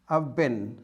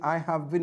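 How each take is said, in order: First: Have is shortened and joined to I. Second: Have is said as a separate full word. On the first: "You can make the contract. You could say" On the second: "Instead of saying"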